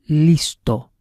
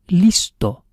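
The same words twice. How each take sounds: The two takes are said the same way.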